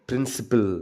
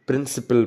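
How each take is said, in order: No difference in how they are said.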